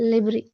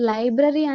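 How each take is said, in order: First: The word is said loosely, with sounds blurred. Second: Every sound of the word is articulated clearly. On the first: Listeners may be confused by the word. The speaker calls it wrong. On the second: Listeners understand the word easily. The speaker calls it right.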